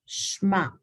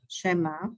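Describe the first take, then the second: First: The sh blends straight into the m. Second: A short e is heard after the sh. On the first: The speaker calls it right. "it's supposed to be Shma. So then it is actually silent because it's blended" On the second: The speaker calls it wrong. "some people say Shema, Shema, because then they say that this is a short E"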